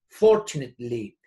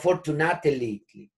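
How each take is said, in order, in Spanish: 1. El acento cae en la primera sílaba. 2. El acento cae en una sílaba posterior. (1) "y el acento se hace más atrasito" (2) "No fortunately"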